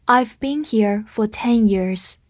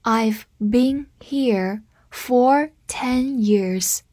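First: Said in the usual way. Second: Very slow, word by word; slow read-through. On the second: Shown as a demonstration. Teacher modelling "for" with a time span, slow read-through. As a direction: say it slowly with clear gaps between words. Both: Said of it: "我们慢读一遍".

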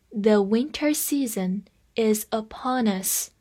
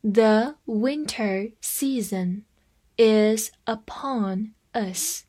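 First: Said in the usual way. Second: Slow, separated words for learners to follow; slow read-along. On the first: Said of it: "跟着我慢读一遍". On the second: Shown as a demonstration. Teacher has students follow along, slow word-by-word reading. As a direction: read slowly word by word, pausing between words. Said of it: "好，跟着我慢读一遍".

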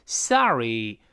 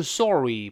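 First: "sorry" said as "sah-ree"; American "ah" vowel. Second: "sorry" said as "saw-ree" with pouted lips; rounded o, wrong. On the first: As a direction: open the o of "sorry" to "ah". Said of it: "字母O是发的啊这个声音". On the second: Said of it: "不要撅嘴啊". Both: Shown as a demonstration.

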